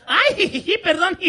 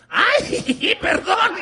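First: High, loud "ay, jijiji" with a mock apology; a fake-innocent giggle as she says sorry; giggly fake sorry. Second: Higher, louder "ay, perdón" with a giggle; the same fake-innocent apology, turned back on her; giggly fake sorry. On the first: (disculpa falsa entre risitas) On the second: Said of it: "Y yo hice lo propio". (disculpa burlona con risita)

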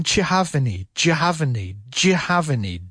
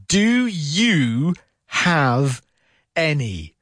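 First: "Do you have any?" as "jav-any", run together; fast connected speech. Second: "Do you have any?" drawn out word by word; very slow. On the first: Teacher contrasts fast connected speech with slow. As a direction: squash "Do you have any?" into one chunk. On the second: Teacher slows the phrase down for learners, very slow. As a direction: stretch "Do you have any?" slowly, each word separate. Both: Shown as a demonstration. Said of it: "if I slow it down".

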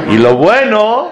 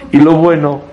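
First: Y lo bueno jumps much higher with rising bueno; stressed contrast. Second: Said in the usual way. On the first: Shown as a demonstration. Rabbi exposing the selfish wife, sharply stressed. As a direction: hit bueno high to show the twist.

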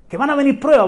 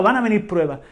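First: Higher, louder first call; emphatic warning. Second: Said in the usual way. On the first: Real, not acted. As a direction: ring out the warning. Preacher repeats warning phrase.

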